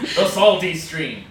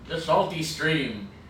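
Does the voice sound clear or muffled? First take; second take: clear; muffled. First: It is said without anything in the mouth. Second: It is said with a straw in the mouth. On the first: The speaker calls it right. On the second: The speaker calls it wrong. "Can you not say that with a straw in your mouth?"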